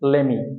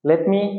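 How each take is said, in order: First: The two words merge into one reduced word. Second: The two words are said separately and fully. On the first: "সংক্ষেপে" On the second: "সংক্ষেপে আরেকবার সবগুলা একবার করে উচ্চারণ করছি"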